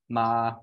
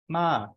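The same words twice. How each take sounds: First: The pitch stays level in the middle. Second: The pitch starts very high and falls. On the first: "they have a mid-tone, um, so words like ma, where the uh, pitch is staying about three" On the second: "a falling tone that starts at about five and falls"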